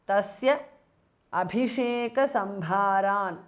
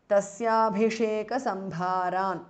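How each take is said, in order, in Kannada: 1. tasya ಮತ್ತು abhisheka ಪ್ರತ್ಯೇಕ ಪದಗಳಾಗಿ ಹೇಳಲಾಗುತ್ತದೆ. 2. tasya ಮತ್ತು abhisheka ಒಂದೇ ಪದವಾಗಿ ಸೇರುತ್ತದೆ.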